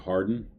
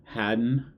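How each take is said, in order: First: The word is said in his ordinary accent. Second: The word is said in an imitated accent.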